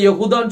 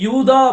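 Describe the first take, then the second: First: The name is said in three syllables, Ye-hu-tha. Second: The name is said in two syllables, Yu-tha. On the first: The speaker calls it right. "கரெக்ட்டா கொடுத்திருக்குது" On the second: The speaker calls it wrong. "நம்ம உச்சரிப்பு தப்பா உச்சரிச்சிட்டு இருக்கோமோ"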